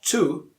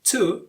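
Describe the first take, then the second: First: The word is said in its full strong form. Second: The same.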